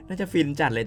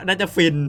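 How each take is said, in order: First: Said in the usual way. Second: "น่าจะฟิน" said higher and louder, gushing; excited. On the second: Real, not acted. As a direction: gush "น่าจะฟิน" with delight.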